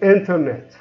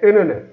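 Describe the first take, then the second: First: The T after the N is clearly pronounced. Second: The T after the N is dropped. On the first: "I don't say internet" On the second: "I say internet. ... we remove the T"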